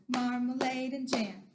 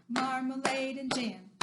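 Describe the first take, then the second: The two takes are said the same way.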